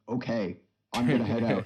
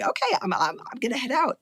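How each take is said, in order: First: It is a steady voice, not Tommy's teen voice. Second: It is a hesitant sixteen-year-old Tommy voice.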